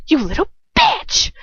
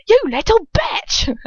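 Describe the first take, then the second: First: Put-on high, loud roar with the accent slipping; angry roar. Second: High, loud, drawn-out roar in a put-on accent; Dolohov's accent. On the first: Dolohov roars at the one who kicked him, angry roar. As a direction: roar it out, pitch shooting up. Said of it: "Dolohov roars. Oh, I lost the accent". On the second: Reader retries the villain's line, roaring in the accent. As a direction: roar it slowly in the character's accent. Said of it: "Oh, I lost the accent". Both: A narrator's reading.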